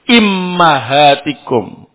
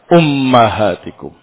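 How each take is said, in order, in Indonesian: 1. Vokal pertama i, yang kedua a. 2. Vokal pertama u, yang kedua a. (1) "Alif atau hamzahnya di kasrah, mimnya di fathah" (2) "alifnya di dhammah dan mimnya di fathah"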